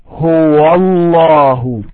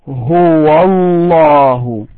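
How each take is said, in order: The two takes are said the same way.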